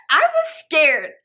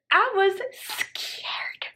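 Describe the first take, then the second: First: Loud, slow, high mock-tearful cry; hammed-up fright. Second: Very drawn-out, high, whispery whimper; hammed-up fright. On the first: Storyteller reliving the blocked door, loud mock-tearful fright. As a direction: wail it slowly and loudly in exaggerated fear. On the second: Storyteller reliving being trapped, drawn-out whispery mock fear. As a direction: stretch 'scared' into a thin, high mock whimper.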